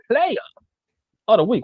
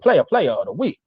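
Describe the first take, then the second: First: The phrase is said slowly. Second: The phrase is said quickly.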